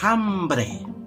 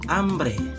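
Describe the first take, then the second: First: The starting h is sounded out. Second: The starting h is silent. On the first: This is how the word is written. The speaker calls it wrong. "kata hambre itu ditulis hambre" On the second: This is how the word is read aloud. The speaker calls it right. "tapi dibaca hambre"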